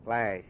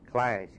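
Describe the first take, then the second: No difference in how they are said.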